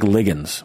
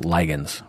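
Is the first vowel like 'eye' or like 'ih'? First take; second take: ih; eye. First: The first vowel is short, as in 'lick'. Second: The first vowel is long, as in 'lie'. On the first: "I like ligands" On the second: "which reminds me of like liger"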